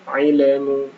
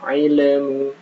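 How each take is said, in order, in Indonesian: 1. Bunyi lam dipantulkan dengan gema. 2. Bunyi lam dipantulkan dengan gema.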